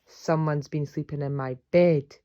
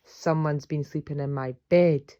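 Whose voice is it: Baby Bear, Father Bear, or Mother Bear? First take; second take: Father Bear; Father Bear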